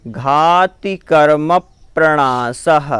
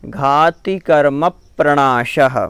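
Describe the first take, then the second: Both takes have the same delivery.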